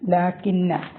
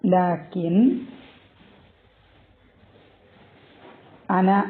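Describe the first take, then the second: First: The words merge into one with a doubled n. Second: The two words are kept apart with a glottal stop. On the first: "ലാക്കിന്ന ഇത് actually" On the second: "actually ലാക്കിൻ അന എന്നാണ്"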